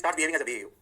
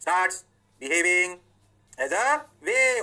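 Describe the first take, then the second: First: Said in the usual way. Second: "Starts", "behaving", "as a", "wave" each alone after a pause, "wave" louder; slow it right down for note-taking; teacher spacing each word out for the class; dictated word by word. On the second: Shown as a demonstration.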